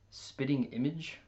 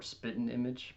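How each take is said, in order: First: "spitting image" with a clear t and the full ing; careful spitting image. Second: "spitting image" said as spittn, the t and g swallowed; relaxed spitting image. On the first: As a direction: say "spitting" as spit-ting, every sound crisp. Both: Shown as a demonstration. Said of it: "or spitting image".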